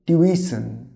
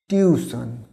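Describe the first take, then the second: First: "টিউশন" said as tyu-i-sən, weak last vowel; correct pronunciation. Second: "টিউশন" said the everyday Bengali way, tiu-san; common mispronunciation. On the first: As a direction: say "টিউশন" with an "i" glide before -sən. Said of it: "এর সঠিক উচ্চারণ হচ্ছে". ("টিউশন" সঠিক উচ্চারণে, টিউইসন) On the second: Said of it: "টিউশন বলি বা আমরা অনেকে". ("টিউশন" চলতি বাংলা উচ্চারণে, টিউ-সান) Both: Shown as a demonstration.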